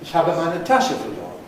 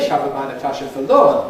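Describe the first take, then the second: First: The accent falls on the noun Tasche. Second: The accent falls on the verb verloren. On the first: The bag is simply reported as lost. "what we're doing in each case is accenting the last noun" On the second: It was lost rather than something else done with it. "but that's a contrast. I've lost it rather than do something else with it"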